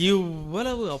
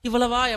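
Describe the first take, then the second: First: The word is said with strong, drawn-out emphasis. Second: The word is said plainly, without special emphasis. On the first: It is an overwhelmingly great amount. The speaker calls it right. "அப்பா அவ்வளோ பெருசு அப்படின்ற ஒரு மீனிங்ல" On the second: It is just an ordinary amount. The speaker calls it wrong. "அது சாதாரணமா சொல்லக்கூடாது. இவ்வளவா அப்படி சொல்லாம"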